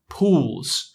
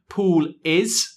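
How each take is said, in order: First: 'Pool is' is contracted to 'pool's'. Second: 'Pool is' is said as two full words. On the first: "much easier to say" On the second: "Takes more energy to say this"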